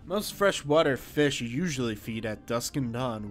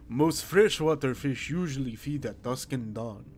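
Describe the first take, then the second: First: It is said in the speaker's own voice. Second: It is said in the male character's voice.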